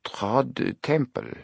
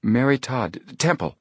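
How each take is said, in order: First: Put-on very slow, French-accented echo of a name; drawn-out, quizzical French manager. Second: Halting, high-pitched self-correction; nervous slip, pitched up; flustered. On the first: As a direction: repeat it doubtfully in a French accent. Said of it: "spoke with a French accent". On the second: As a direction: catch yourself and blurt the name higher. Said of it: "she said, flustered". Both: A narrator's reading.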